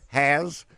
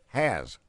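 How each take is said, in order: First: The name ends with a buzzing z sound. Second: The name ends with a hissing s sound. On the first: The speaker calls it right. "It's got Haz, H-A-Z, is how you're supposed to say Luke's last name" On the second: The speaker calls it wrong. "I've been trying to say this. H-A-S"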